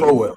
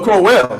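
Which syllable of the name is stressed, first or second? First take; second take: first; second. First: The stress is on the first syllable. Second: The stress is on the second syllable. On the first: "that's a emphasis on the first syllable" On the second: "So emphasis on the latter syllable"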